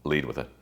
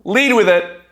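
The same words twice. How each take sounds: First: Softer, lower Lead with it; quiet emphasis. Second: Loud proclamation. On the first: Speaker repeats the cure for shame quietly. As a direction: say it low and settled. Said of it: "You guys wanna cure your shame?". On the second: Speaker gives the crowd the cure for shame, loud. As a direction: shout Lead with it, high and loud. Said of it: "the number one antidote". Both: Shown as a demonstration.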